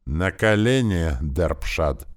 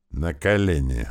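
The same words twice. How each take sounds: First: Slow, loud, commanding yell; shouted command. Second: A curt, firm order without raising the voice; controlled, clipped command; harsh command. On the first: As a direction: drag out «колени» in a furious shout. Prince repeats order, shouting. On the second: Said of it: "приказал он жёстко". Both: A narrator's reading.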